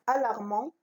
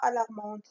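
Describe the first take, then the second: First: The final t is not pronounced. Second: The final t is pronounced. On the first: The speaker calls it right. "la lettre muette, c'est T" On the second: The speaker calls it wrong. "On ne dit pas alarmante"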